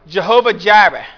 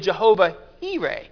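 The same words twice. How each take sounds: First: The words begin with a J sound. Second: The words begin with an H sound. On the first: "If you pronounce it the American way" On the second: "the actual literal way, The J makes a H sound"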